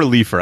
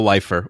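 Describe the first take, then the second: First: Leifer said as LEE-fer; LEE-fer pronunciation. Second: Leifer said as LIFE-er; LIFE-er pronunciation. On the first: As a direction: say Leifer with a long E, like "leaf". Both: Shown as a demonstration. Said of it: "I don't know how she pronounces it".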